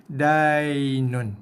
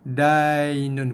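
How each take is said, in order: The two takes are said the same way.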